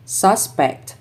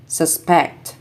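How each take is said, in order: First: SUSpect, stressed on the first syllable; noun stress. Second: SusPECT, stressed on the second syllable; short sus, strong PECT in suspect; verb stress. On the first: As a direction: punch SUS in Suspect, then fall. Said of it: "nouns are stressed on the first syllable". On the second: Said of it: "verbs are stressed on the second syllable". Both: Shown as a demonstration.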